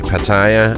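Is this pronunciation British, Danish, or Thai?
Danish. It is said with a Danish pronunciation. "we Danes say Pattaya"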